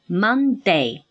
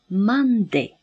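First: The last syllable is pronounced like 'day'. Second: The last syllable ends in a short 'i' sound. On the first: The speaker calls it wrong. "我们通常就读作day" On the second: The speaker calls it right. "应该读作Monday。这个单词的末尾读作d，而不是day"

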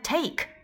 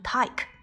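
First: The vowel is said in a standard way. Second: The vowel is said in an Australian way.

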